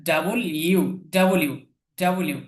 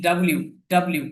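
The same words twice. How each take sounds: First: ডাবল ইউ slowly split, then ডাব্লিউ as "da-bo-liu"; correct W pronunciation. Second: ডাব্লিউ squeezed into "dab-liu"; common mispronunciation of W. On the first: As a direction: sound out ডাব্লিউ as "double-you", keeping the middle vowel. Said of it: "ডাব্লিউ না, এটা ডাবল ইউ". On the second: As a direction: say ডাব্লিউ with no vowel between b and l. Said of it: "আমরা এটার উচ্চারণ অনেকেই করে থাকি". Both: Shown as a demonstration.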